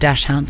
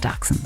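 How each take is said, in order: First: It is said the English way, like dash hounds. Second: It is said with a German pronunciation. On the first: The speaker calls it wrong. "People call them dash hounds" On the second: The speaker calls it right. "it's actually pronounced dachshunds"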